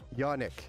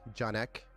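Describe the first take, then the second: First: The name begins with a Y sound. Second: The name begins with a J sound. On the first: The speaker calls it right. "Yolnik is the correct" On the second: The speaker calls it wrong. "I thought I was saying it wrong"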